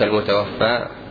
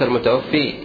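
First: The word ends in a long a sound. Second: The word ends in a long i sound. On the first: The speaker calls it right. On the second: The speaker calls it wrong.

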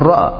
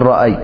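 First: The word ends in a plain long a. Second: The word ends with a y sound. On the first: The speaker calls it right. "تريد أن تعبر عن الماضي تقول رأى" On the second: The speaker calls it wrong. "لا تقول رأي"

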